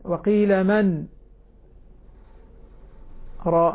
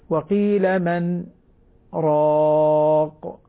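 First: The pause after 'man' is drawn out too long. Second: The pause after 'man' is short and light. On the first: The speaker calls it wrong. "هذه زيادة هذه مبالغة فيها" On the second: The speaker calls it right. "الصواب يعني سكتة لطيفة خفيفة"

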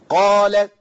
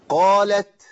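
First: The final t sound is left out. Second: The final t sound is clearly released. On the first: The speaker calls it wrong. "انا ما جبتش تاء" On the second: The speaker calls it right. "سمعت التاء صح؟"

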